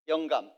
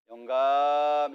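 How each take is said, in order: First: The first syllable is said quickly and short. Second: The first syllable is drawn out slowly. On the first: The speaker calls it right. "짧게" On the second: The speaker calls it wrong. "천천히 말하면 안 돼요"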